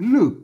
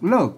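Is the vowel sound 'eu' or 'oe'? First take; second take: eu; oe. First: The vowel is a close 'eu' sound. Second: The vowel is an open 'oe' sound. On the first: This is the literal reading of the spelling. "ถ้าเราอ่านแต่แต้มนอ่านว่าลึก" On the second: This is the accepted conventional reading. "อนุโลมให้มันเป็น"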